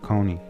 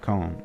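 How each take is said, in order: First: The name is said as two syllables. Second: The name is said as one syllable. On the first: "instead of Coney" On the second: "I would pronounce that as Kevin Cone"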